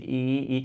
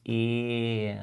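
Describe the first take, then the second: First: The vowel is said with tense, spread lips. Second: The vowel is said with loose, relaxed lips. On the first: "avec ce sourire un peu forcé" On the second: "Je relâche les lèvres"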